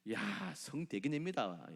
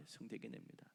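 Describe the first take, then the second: First: 성대기냅니다 drawn out slowly with a falling end; slow stress. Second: 성대기냅니다 repeated much softer, trailing off; soft echo. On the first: Preacher repeats the word slowly to the church. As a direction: lean hard on 성대기냅니다. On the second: Preacher echoes the word quietly to the church. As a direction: murmur 성대기냅니다 back to yourself. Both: Shown as a demonstration.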